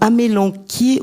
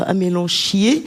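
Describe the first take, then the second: First: The middle consonant is a hard 'k' sound. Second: The middle consonant is a soft 'sh' sound. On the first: The speaker calls it right. "donc c'est amélanquier" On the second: The speaker calls it wrong. "comme j'ai entendu certains le prononcer, c'est pas beau ça"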